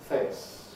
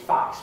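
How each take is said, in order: First: It is said in a posh accent. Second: It is said in a Cockney accent. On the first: "posh is face" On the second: "Cockney is face"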